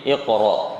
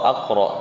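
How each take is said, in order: First: The word begins with an i vowel. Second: The word begins with an a vowel. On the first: The speaker calls it right. "tapi iqra" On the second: The speaker calls it wrong. "atau aqra"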